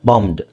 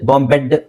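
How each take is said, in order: First: The ending has no extra vowel before d. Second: The ending adds an extra vowel before d. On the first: The speaker calls it right. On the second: The speaker calls it wrong.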